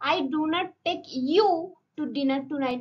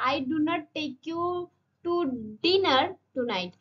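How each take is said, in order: First: The word "you" carries the main stress. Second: The word "dinner" carries the main stress. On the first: Someone else will be taken, not you. "মানে আমি তোমাকে নিয়ে যাবো না, অন্য কাউকে।" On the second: You may be taken to another meal, not dinner. "তাহলে ডিনারে নিয়ে যাবো না, অন্য লাঞ্চে ফাঞ্চে নিয়ে যেতে পারি।"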